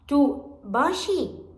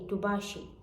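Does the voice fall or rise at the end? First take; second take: rise; fall. First: The voice rises at the end. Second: The voice stays level or falls at the end. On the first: It asks whether you are okay. "to the end, we uh, we do uh, like stress with our voice and just we raise it" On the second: It states that you are okay. "it's a statement. You are okay"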